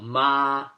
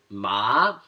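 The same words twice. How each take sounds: First: The pitch stays level and flat throughout. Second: The pitch rises from low to high. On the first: It means mom. "the first tone is flat. You're speaking in a monotone" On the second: It means numb. "The second tone goes up, so you're increasing the pitch"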